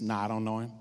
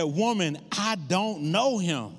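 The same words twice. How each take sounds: First: Low, offhand retold denial; balking denial. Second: Slow, drawn-out retold denial; emphatic denial. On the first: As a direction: back out of it, pitch dropped low. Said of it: "balked when a servant girl said". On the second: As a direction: deny it firmly, stretching the words out. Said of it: "Peter denied even knowing Jesus".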